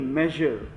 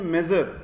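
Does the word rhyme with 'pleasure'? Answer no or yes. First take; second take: yes; no. First: The word rhymes with pleasure. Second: The word does not rhyme with pleasure. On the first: The speaker calls it right. "मेजर, प्लेजर, मेजर" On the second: The speaker calls it wrong. "इसे हम लोग कई बार पढ़ते हैं मेजर, तो ये मेजर नहीं"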